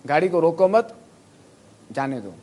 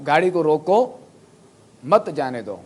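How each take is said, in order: First: "روکو مت" high, loud and rising, then a break before "جانے دو"; pause after مت. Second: "روکو" slow and rising, a clear break, then "مت جانے دو"; pause after روکو. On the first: Teacher showing students where to pause, break after "مت". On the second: Teacher showing students how a pause changes meaning, pause after "روکو". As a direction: stop after "روکو", hit "مت" as the start of a new phrase. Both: Shown as a demonstration. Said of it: "میں کہاں وقف کروں گا".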